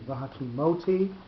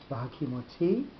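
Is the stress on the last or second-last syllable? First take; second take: second-last; last. First: The stress is on the second-last syllable. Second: The stress is on the last syllable. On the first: "the second last syllable would be the one with the accent on it" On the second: "rather than"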